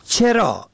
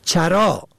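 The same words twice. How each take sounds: First: چرا said cherâ, short e first; چرا pronounced cherâ; kasra on first. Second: چرا said charâ, short a first; چرا pronounced charâ; fatha on first. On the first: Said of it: "به کسر اول". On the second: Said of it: "به فتح اول". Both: Shown as a demonstration.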